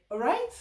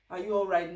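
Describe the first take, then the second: First: "All right?" shortened to two words, quick and high with a rising end; clipped greeting. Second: "Are you all right?" said in full, every word, falling at the end; full slow question. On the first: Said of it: "No, like". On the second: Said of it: "they're not going to say that long". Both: Shown as a demonstration.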